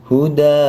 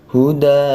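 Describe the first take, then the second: No difference in how they are said.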